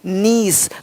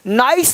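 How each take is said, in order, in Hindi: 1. स्वर 'ee' जैसा सुनाई देता है। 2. स्वर 'eye' जैसा सुनाई देता है। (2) "नाइस नहीं"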